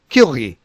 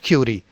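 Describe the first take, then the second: First: The R is a guttural sound from the throat. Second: The R is a soft, English-like sound. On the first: The speaker calls it right. "R is pronounced in this guttural sound" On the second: The speaker calls it wrong. "it is not Curie"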